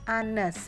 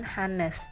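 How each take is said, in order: First: The word begins with a vowel sound. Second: The word begins with an h sound. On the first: The speaker calls it right. "bacanya Anes, bukan Hannes. Jadi huruf awalnya pengucapannya yaitu a" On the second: The speaker calls it wrong. "bukan Hannes"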